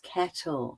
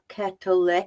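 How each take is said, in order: First: The normally silent letter is not pronounced. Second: The normally silent letter is pronounced aloud. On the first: The speaker calls it right. "it's kettle" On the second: The speaker calls it wrong. "we don't pronounce this. It's not kettle"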